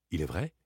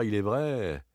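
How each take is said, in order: First: "Il est vrai" asked, rising on vrai; doubting question. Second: "il est vrai" stated, falling on vrai; conceding. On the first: Same words turned to question. (interrogatif, « vrai » montant) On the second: Statement, then doubted. (concession, « vrai » descendant) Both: Acted.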